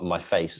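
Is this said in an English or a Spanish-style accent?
English. It is said with a plain English pronunciation.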